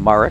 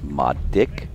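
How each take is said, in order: First: The name is said like 'Marek'. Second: The name is said like 'Modic'. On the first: This is how the club members say it. The speaker calls it wrong. "All our members call him Marek" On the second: This is the name's proper pronunciation. The speaker calls it right. "I keep reminding them it's Modic"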